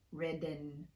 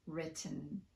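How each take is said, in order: First: The T is tapped like a quick D. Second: The T is fully pronounced. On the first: The speaker calls it wrong. "but not" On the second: The speaker calls it right. "it's safe to just fully pronounce the T"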